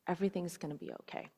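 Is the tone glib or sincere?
sincere. It is said with sincere, heartfelt warmth.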